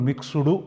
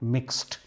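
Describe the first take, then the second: First: The word ends with an added 'du' vowel sound. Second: The word ends sharply with a 't' sound. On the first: The speaker calls it wrong. "దీన్ని కూడా మిక్స్డు అనకూడదు" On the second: The speaker calls it right. "ఇక్కడ డీని టీగా పలకాలి"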